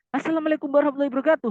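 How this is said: It sounds lively, loud and full of energy.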